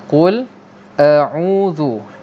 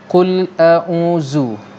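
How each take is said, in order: First: The consonant is a soft th sound. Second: The consonant is a buzzing z sound. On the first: The speaker calls it right. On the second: The speaker calls it wrong.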